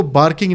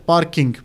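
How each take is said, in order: First: بارکنگ, parking with b for p; mispronounced. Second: Said in the usual way. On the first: Shown as a demonstration. Teacher warning students, parking mispronounced with a b as بارکنگ. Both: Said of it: "آپ اس کو بارکنگ نہیں کہہ سکتے".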